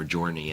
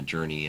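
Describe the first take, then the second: First: "journey" with first syllable said like "joy". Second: Said in the usual way. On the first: Shown as a demonstration. Guest explains his own word for the experience, "journey" pronounced joy-ney. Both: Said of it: "as I call it J O Y".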